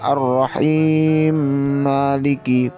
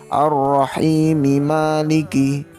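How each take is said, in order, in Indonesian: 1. Vokal akhir dari 'rahimi' dihilangkan. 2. Vokal akhir dari 'rahimi' diucapkan.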